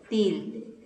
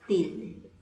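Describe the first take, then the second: Both takes have the same delivery.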